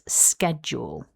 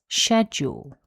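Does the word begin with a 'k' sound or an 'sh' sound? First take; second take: k; sh. First: The word begins with a k sound. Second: The word begins with an sh sound. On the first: "schedule with the k sound" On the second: "starts with the unvoiced sh sound"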